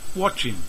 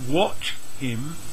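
First: The H is dropped and the words are joined. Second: The H is pronounced and the words are separate.

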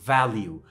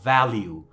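No difference in how they are said.

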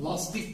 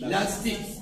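First: The A vowel is said thick and back. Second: The A vowel is said thin and front. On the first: The speaker calls it wrong. "Lastik değil" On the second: The speaker calls it right. "Şimdi burada ince A olarak okuyoruz"

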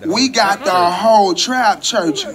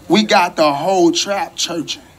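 First: It is said with strong, heartfelt energy. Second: It is said in a plain, low-energy way. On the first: The speaker calls it right. "you got to say it like this. ... You got to feel that thing down deep in your soul" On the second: The speaker calls it wrong.

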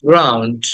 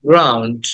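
No difference in how they are said.

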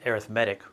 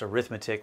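First: The stress is on the third syllable. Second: The stress is on the second syllable. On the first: The word is used as an adjective. "it's pronounced arithmetic when it's an adjective" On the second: The word is used as a noun. "it's pronounced arithmetic when it's a noun"

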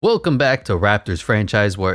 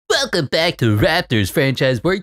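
First: It is said in a plain, normal speaking voice. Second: It is said in a big, dramatic announcer voice.

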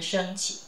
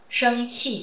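First: The second syllable is in neutral tone. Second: The second syllable keeps its full tone.

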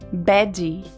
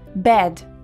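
First: An extra vowel syllable follows the final consonant. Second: The word ends cleanly on the final consonant. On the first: The speaker calls it wrong. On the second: The speaker calls it right.

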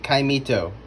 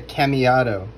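First: The word is said like 'caimito'. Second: The word is said like 'cameado'. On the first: The speaker calls it right. "It is a caimito" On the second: The speaker calls it wrong. "I was pronouncing it incorrectly at first, calling it a cameado"

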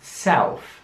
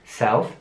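First: The word is said slowly. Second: The word is said at normal speed.

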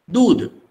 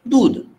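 No difference in how they are said.

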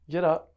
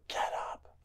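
First: It is said fairly loudly. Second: It is screamed.

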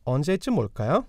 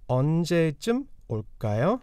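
First: The phrase is spoken at a natural speed. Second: The phrase is spoken slowly and carefully. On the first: "And a little bit more naturally now" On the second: "First, we'll start slowly"

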